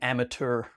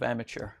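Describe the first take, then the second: First: It is pronounced in a fancy, pretentious-sounding way. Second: It is pronounced in an ordinary, everyday way.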